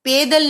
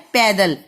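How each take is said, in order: First: पैदल said with a short e sound, as pedal; पैदल with a clipped e vowel instead of ai; the wrong way, पैदल with e. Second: पैदल said with an open ai sound, as paidal; पैदल with a clear open ai in the first syllable; the right way, पैदल with ai; correct ai vowel. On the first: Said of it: "सो शब्द होता है पैदल". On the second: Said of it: "अगर आप ए की मात्रा डाल देंगे". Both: Shown as a demonstration.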